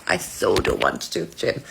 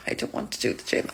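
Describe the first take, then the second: First: Much lower put-on moaning voice; low whiny groan. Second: Soft voiceless whisper of reluctance; whispered dread.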